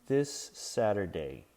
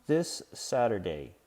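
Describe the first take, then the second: The two takes are said the same way.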